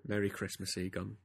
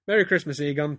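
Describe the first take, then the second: First: Said softly. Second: High, loud, over-bright festive greeting; too much pizzazz. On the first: Peter to his lover after lovemaking, softly. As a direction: bring it right down, softly. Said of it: "Peter said softly". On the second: Peter greeting Egon in a story, overdone pizzazz. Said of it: "too much kind of pizzazz". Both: A narrator's reading.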